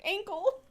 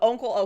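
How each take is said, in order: First: The first vowel sounds like 'a' in 'ankle'. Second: The first vowel sounds like 'u' in 'uncle'. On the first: The speaker calls it wrong. "Pronunciate like ankle" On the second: The speaker calls it right. "It's like uh uncle"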